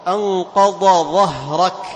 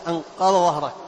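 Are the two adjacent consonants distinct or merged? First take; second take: distinct; merged. First: The two consonants are pronounced separately. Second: The two consonants merge into one sound. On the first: The speaker calls it right. "لابد أن تخرج كل حرف من مخرجه الصحيح" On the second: The speaker calls it wrong. "أو تجعل يعني الحرفين نفس النطق نفس المخرج، أنقض ظهرك خطأ"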